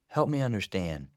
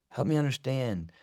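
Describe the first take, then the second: Both takes have the same delivery.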